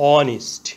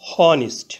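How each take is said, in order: First: The word begins directly with a vowel sound. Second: The word begins with an audible h sound. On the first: The speaker calls it right. "এইচ এর উচ্চারণ না হয়ে vowel ও থেকে উচ্চারণ শুরু হয়েছে অনিস্ট" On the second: The speaker calls it wrong. "প্রথমে এইচ ধরে উচ্চারণ করলে হয় হনিস্ট"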